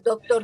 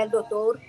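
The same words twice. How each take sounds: First: Said in the usual way. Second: El doctor with an added article; regional mispronunciation. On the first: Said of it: "en vez de decir doctor". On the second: Shown as a demonstration. Recalling her home region's speech, says el doctor. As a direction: says el doctor, not just doctor. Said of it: "decía el doctor".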